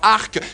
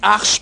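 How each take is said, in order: First: The syllable ends with a k sound. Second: The syllable ends with a sh sound. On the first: The speaker calls it wrong. "pas arc" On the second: The speaker calls it right. "c'est arche, comme dans l'arche de Noé"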